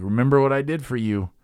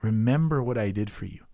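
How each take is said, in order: First: Pointed, reproachful reminder, a bit louder; mock scolding Jesus; guilt-tripping reminder. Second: Gentle, reassuring reminder; tender Jesus reassuring; loving reminder. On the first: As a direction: lay on the guilt. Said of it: "it's not Jesus saying". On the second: Retold or imitated. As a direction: say it to comfort, not accuse.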